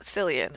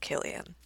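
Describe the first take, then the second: First: The name begins with an S sound. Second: The name begins with a K sound. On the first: The speaker calls it wrong. "So it's not Cillian" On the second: The speaker calls it right. "it's Killian, because there's no S sound"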